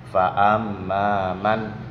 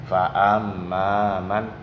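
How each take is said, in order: No difference in how they are said.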